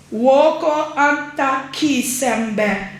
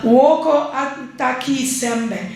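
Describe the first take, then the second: First: "Woko Anta Kisembe" said slowly, word by word, before the accent is tried; a careful first reading of "Woko Anta Kisembe"; first try at the Saramaccan phrase. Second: "Woko Anta Kisembe" said slowly in a mild Saramaccan accent. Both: Shown as a demonstration. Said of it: "I've tried to do the accent".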